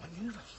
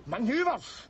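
First: Incredulous echo. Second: Indignant repeat. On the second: Drunk Scot rounding on the soldier who said manoeuvres, indignant. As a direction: throw the word "Manoeuvres" back at him, offended. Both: Acted.

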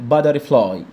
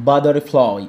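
No difference in how they are said.

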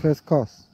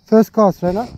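First: Said in the usual way. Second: Called out loud. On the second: Real, not acted. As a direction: call it out to your mate, higher and louder. Calling cast to fishing partner.

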